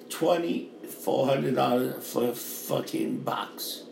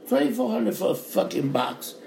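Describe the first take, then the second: First: Twenty-four hundred dollars said slow and softer, dragging each word; quiet disbelief at the price; slow, disgusted. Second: "Twenty-four" said higher and sharper the second time; indignant higher retake; higher, indignant repeat. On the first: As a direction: let "twenty-four" sink in low and slow. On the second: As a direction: pitch up on "Twenty-four" in outrage. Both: Real, not acted. Repeats the rent price.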